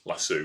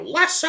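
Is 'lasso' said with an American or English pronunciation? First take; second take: English; American. First: It is said with an English pronunciation. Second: It is said with an American pronunciation. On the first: "that's the English pronunciation" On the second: "if she was here, she'd go"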